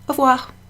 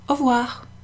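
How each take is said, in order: Both takes have the same delivery.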